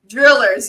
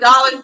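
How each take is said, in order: First: The word sounds like 'drillers'. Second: The word sounds like standard 'dollars'. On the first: "she used to say drillers, so now I'll be saying drillers" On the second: "But dollars"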